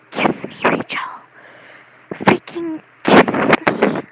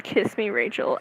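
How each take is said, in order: First: Forceful whispered mock plea; hammed-up, loud stage whisper; intense whisper. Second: Said in the usual way. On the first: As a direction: whisper it urgently, dragging out the repeat. Re-enacting an outburst said downstairs.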